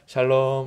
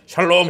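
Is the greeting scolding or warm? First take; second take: warm; scolding. First: It sounds warm and smiling. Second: It sounds stern and scolding.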